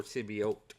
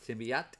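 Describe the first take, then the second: First: "symbiote" with a long O in the last syllable; symbiote ending "-ote". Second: "Symbiote" with the last syllable like "ought"; symbiote ending "-ot". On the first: Comic fan offering the other pronunciation, "symbiote" said SIM-bee-oat. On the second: Comic fan trying out a pronunciation, "Symbiote" said SIM-bee-aht. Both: Shown as a demonstration. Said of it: "How do you say it?".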